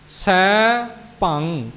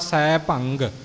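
First: It ends on the nasal with no g release. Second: It ends with an audible g sound released. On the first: The speaker calls it right. "ਇਹਦੇ ਤੋਂ ਬਾਅਦ ਹੋਰ ਆਵਾਜ਼ ਨਾ ਸਾਡੇ ਮੂੰਹ ਵਿੱਚੋਂ ਆਵੇ" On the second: The speaker calls it wrong. "ਭੰਗ ਕਹਿ ਕੇ ਅੱਗੇ ਗੱਗਾ ਬੋਲ ਦਿੱਤਾ ਜਾਂਦਾ"

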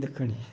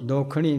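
First: The first vowel is a short 'a' sound. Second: The first vowel is an 'o' sound. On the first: The speaker calls it right. "ਦੱਖਣੀ, ਦੱਖ ਖਾ ਦੱਖ ਆਪਾਂ ਜੋੜਿਆ ਕਰ" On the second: The speaker calls it wrong. "ਦੋਖਣੀ ਨਹੀਂ"

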